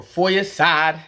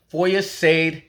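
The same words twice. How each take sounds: First: "for your side" with "side" rhyming with ride; name ending SIDE. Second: "for your side" with "side" said as SAYD; name ending SAYD. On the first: Offering viewers the other way to say the player's name, ending SIDE. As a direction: slowly say "side" in "for your side" with a long EYE vowel. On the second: Giving viewers one way to say the player's name, ending SAYD. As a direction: pronounce "side" in "for your side" to rhyme with made. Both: Shown as a demonstration. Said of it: "however you wanna say it".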